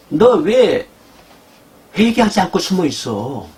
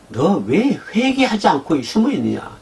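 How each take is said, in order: First: God's sharp rebuke. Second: God's rebuke. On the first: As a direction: call the hiding sinner out. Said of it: "지금 하나님 말씀 이 말씀이에요". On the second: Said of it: "이 얘기 같아요". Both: Acted.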